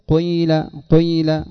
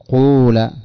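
First: The first vowel starts with a trace of u, then i. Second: The first vowel is a full u sound. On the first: The speaker calls it right. "إنما جزء يسير من الضمة في أوله ثم التكملة بالكسر" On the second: The speaker calls it wrong. "لكن لا تأتي بها كاملة فتقول قول"

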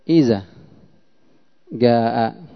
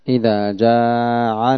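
First: The second word ends with a glottal stop. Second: The second word ends with an ain sound. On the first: "يقول بدل الذال زاء" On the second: "بدل الهمزة عين"

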